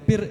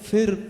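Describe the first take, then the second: First: The word begins with a p sound. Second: The word begins with an f sound. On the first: The speaker calls it wrong. "പിർ എന്ന് പറയാറുണ്ട്" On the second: The speaker calls it right. "ഫിർ എന്ന് പറയുമ്പോൾ"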